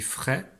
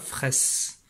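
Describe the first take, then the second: First: The word ends without an s sound. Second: The word ends with an s sound. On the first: The speaker calls it right. "je ne prononce pas le S" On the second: The speaker calls it wrong. "on ne dit pas fraisse"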